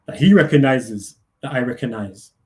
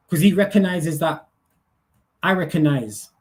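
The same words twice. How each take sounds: First: Deep repeat. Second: Said in the usual way. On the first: Shown as a demonstration. Repeats phrase in deeper voice.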